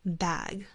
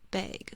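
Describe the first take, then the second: First: The vowel is open and flat. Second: The vowel is raised, like in bagel.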